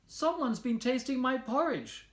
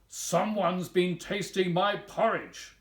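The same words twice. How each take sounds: First: It is said in a tiny, high voice. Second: It is said in a big, deep voice.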